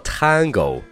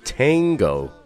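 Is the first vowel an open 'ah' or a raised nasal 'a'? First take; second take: open ah; raised a. First: The first vowel is an open, Mandarin-style 'ah'. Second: The first vowel is raised and colored by 'ng'. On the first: The speaker calls it wrong. "它不读作Tango，那你就是完全在用中文的拼音在读英文了" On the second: The speaker calls it right. "应该读成Tango"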